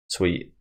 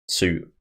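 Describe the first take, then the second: First: It sounds like 'sweet', with a 'w' sound. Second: The vowel sounds like in 'boot', no 'w'.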